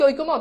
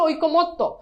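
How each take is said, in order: First: The word ends in a short single-t syllable. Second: The word ends with a doubled t and vowel. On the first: The speaker calls it wrong. "এটার উচ্চারণ অনেকে বলো ঐক্যমত। ভাই, এটার উচ্চারণ কি ঐক্যমত?" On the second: The speaker calls it right. "এটার উচ্চারণ হচ্ছে ঐক্যমত্ত।"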